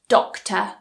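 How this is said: The final R sound is dropped. "we pronounce them with a schwa"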